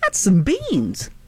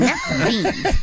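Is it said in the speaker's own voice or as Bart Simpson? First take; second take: own voice; Bart Simpson. First: It is said in his normal voice. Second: It is said in a Bart Simpson voice.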